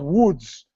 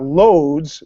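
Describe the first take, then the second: First: The name begins with a W sound. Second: The name begins with an L sound. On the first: The speaker calls it right. "it's called Woods" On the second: The speaker calls it wrong. "So it's not Loads"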